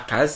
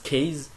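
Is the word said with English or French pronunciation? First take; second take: French; English. First: The word is said with French pronunciation. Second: The word is said with English pronunciation. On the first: The speaker calls it wrong. "ça se prononce pas case" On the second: The speaker calls it right. "ça se prononce case, parce que c'est en anglais"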